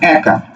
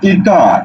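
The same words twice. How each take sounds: First: The first vowel is open, like in 'cat'. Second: The first vowel is closer, like in 'bed'. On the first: The speaker calls it right. "একা বলছো" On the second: The speaker calls it wrong. "তুমি কিন্তু বলছো না একা"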